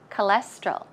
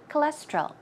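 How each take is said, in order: First: The word is said at a slow pace. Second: The word is said at a fast pace.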